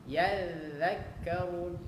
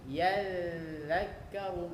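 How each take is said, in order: The two takes are said the same way.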